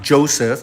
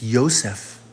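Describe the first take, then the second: First: The name begins with a J sound. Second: The name begins with a Y sound. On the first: The speaker calls it wrong. "It's not Joseph" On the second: The speaker calls it right. "The proper pronunciation"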